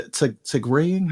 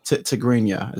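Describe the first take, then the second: First: Halting, drawn-out try at "Tigrayan"; unsure pronunciation. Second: "Tigrinya" repeated carefully, ending in -nya; corrected pronunciation. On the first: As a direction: stumble on the first syllable of "Tigrayan", unsure. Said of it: "how do I say it?". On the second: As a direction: say "Tigrinya" as tih-GREEN-ya, checking it. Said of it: "Is that the proper". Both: Real, not acted.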